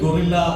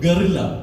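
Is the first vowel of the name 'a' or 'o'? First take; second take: o; a. First: The first vowel sounds like 'o' in go. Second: The first vowel sounds like 'a' in guh. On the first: The speaker calls it wrong. "ഒത്തിരി പേര് തെറ്റായിട്ട് ഗൊറില്ല എന്നൊക്കെ പറയുന്നുണ്ട്" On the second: The speaker calls it right. "ഇതിൻ്റെ പേര് ഗറില്ല എന്നാണ്"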